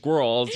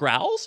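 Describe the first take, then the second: First: The word is said as a plain 'girls'. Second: The word is distorted to sound like 'growls'. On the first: The speaker calls it right. "it's girls, you know" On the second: The speaker calls it wrong. "They were like, the growls?"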